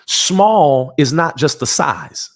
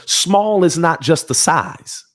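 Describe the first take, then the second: First: Slow, deliberate stress on Small; each word of "Small is not just the size" placed slowly; emphatic restatement. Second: "Small" leaned on, the line drawn out; slower emphatic repeat. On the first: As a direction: press down on "Small" and slow it right down. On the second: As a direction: hammer home "Small is not just the size". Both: Shown as a demonstration. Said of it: "I'm gonna say it again".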